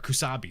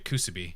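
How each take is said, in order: First: The second vowel sounds like 'ah'. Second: The second vowel sounds like 'oo'. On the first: The speaker calls it right. "Or Kusabi, sorry" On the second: The speaker calls it wrong. "not Kusubi. I don't know why I said it that way again"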